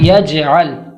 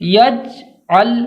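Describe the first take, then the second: First: The j sound ends with an echoing bounce. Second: The j sound is held without an echoing bounce. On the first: The speaker calls it right. "एक लौटती हुई आवाज़ जाहिर हो" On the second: The speaker calls it wrong. "ये पढ़ना दुरुस्त नहीं है"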